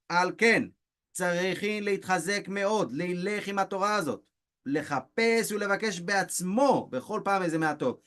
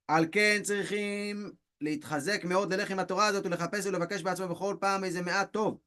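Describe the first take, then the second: First: It is read slowly. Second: It is read fast.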